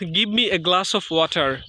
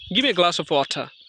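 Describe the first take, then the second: First: Give me is said as two full words. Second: Give me is run together as gimme.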